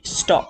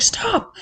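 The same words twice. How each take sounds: First: Said in the usual way. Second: A booming, godlike Stop from on high; big Jesus God voice. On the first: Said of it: "But I'm talking". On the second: Retold or imitated. Mentor telling her to stop, in a big Jesus God voice. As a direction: play the almighty commanding her to halt. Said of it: "in a big Jesus God voice".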